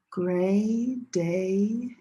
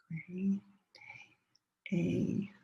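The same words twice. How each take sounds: First: Said in the usual way. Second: Soft whispered "Gray day" under the class. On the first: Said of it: "first time listen". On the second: Shown as a demonstration. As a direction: whisper it so the students' voices carry. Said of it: "second time say it together with me".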